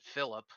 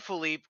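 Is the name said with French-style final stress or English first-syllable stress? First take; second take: English-style; French-style. First: The name is said the English way, stressing the start. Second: The name is said the French way, stressing the end. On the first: It is said the way its owner says it. The speaker calls it right. "as you pronounce it" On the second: It is deliberately mispronounced as a jab. The speaker calls it wrong. "calls you Philippe"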